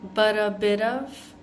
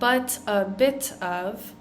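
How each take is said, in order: First: The T sounds are soft flaps. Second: The T sounds are hard T's. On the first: The speaker calls it right. "Same thing with but a bit" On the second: The speaker calls it wrong.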